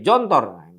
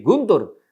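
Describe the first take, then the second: First: It starts with j and has o vowels. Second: It starts with hard g and has u vowels. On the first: This is how Indonesians might read it. "dibaca orang Indonesia bisa jadi" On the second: This is how Egyptians read it. "Kalau orang Mesir baca memang jadi"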